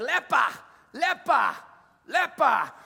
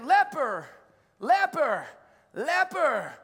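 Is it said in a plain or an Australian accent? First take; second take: Australian; plain. First: It is said in an Australian accent. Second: It is said in the speaker's plain accent.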